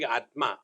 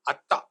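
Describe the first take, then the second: First: The middle sound is a t followed by m. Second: The middle sound is a long doubled t.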